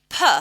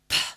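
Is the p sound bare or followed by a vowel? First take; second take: with vowel; bare. First: The p has a short vowel sound after it. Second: The p is a short bare puff of air. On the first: The speaker calls it wrong. "you've added that sound" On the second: The speaker calls it right. "instead of saying"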